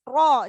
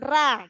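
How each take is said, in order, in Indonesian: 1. Suku kata ra berat, dengan vokal yang lebih gelap. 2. Suku kata ra ringan, dengan vokal yang lebih terang. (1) "harus tebalkan ro" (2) "jangan tipis atau ra"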